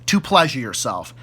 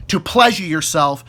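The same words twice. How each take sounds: The two takes are said the same way.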